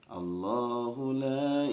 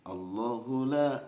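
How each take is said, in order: First: The vowel in Allah is held long. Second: The vowel in Allah is said short. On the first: The speaker calls it right. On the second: The speaker calls it wrong. "Bapak membaca uh"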